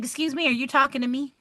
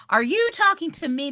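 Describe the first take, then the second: First: Quick, raised mock confrontation; retold stern challenge. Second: Higher, pushing hard on "you"; retold indignant repeat. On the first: Teacher confronting a student who insulted her, quick mock challenge. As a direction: call out the rude student, half-playful. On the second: Teacher repeating her challenge to the student, leaning on "you". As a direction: lean on "you" to demand an answer. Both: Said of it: "And I was like".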